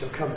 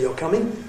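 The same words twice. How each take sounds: First: The voice falls at the end. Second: The voice rises high at the end. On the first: It states that the listener is coming. "which is a statement" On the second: It asks whether the listener is coming. "that's a question"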